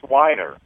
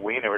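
First: The first vowel sounds like 'eye'. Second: The first vowel sounds like 'ee'. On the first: The speaker calls it right. "it's Weiner. I" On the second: The speaker calls it wrong. "not Wiener"

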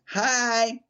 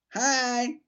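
First: The voice sounds harsh and grating. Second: The voice sounds harsh and grating.

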